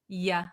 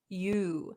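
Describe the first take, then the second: First: The vowel is reduced to a short 'uh'. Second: The vowel is a full 'oo' sound. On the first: "we're going to pronounce it as ya" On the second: "it takes a lot of effort to say you"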